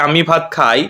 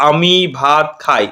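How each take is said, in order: First: Said in the usual way. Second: আমি, ভাত, খাই slowly, each word set apart; slow right down and separate আমি / ভাত / খাই. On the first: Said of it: "একটা বাক্য যদি আমি বলি". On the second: Shown as a demonstration. Teacher showing students the words inside a sentence, slow word-by-word delivery of আমি ভাত খাই. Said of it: "মধ্যে দেখো".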